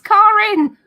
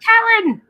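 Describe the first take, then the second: First: The first syllable sounds like the word 'car'. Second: The first syllable does not sound like 'car'. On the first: The speaker calls it right. "it's like car insurance without the insurance" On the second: The speaker calls it wrong. "My name's not Karen"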